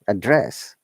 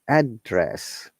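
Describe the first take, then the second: First: The stress is on the second syllable. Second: The stress is on the first syllable. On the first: It is used as a verb. "If it is verb, ... We stress on the second part" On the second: It is used as a noun. "If it is noun, our tone comes from up to down"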